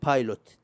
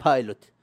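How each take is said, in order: First: بايلوت said as English "pilot" with a p; بايلوت pronounced like the English word pilot; English pronunciation. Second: بايلوت said with an Arabic b, as "bailot"; بايلوت with a b sound, Arabic accent; Arabic pronunciation. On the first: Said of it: "ولا هي بايلوت؟". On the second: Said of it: "ترى نطقتها نطق عربي، أكسنت عربي". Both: Shown as a demonstration.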